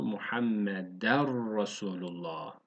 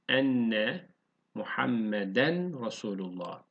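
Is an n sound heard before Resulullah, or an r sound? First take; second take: r sound; n sound. First: The n merges into a doubled r sound. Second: An n sound is heard before Resulullah.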